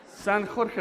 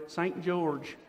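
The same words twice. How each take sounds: First: "San Jorge" said the Spanish way, with a throaty j like "khor-keh"; "San Jorge" with a Spanish j and a hard g, "San KHOR-keh"; Spanish-style name. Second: Said in the usual way. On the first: Shown as a demonstration. Host jokes to the audience that the city could be called San Jorge, Spanish pronunciation. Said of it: "They could have named it San Jorge". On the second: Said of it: "No, they, Saint George".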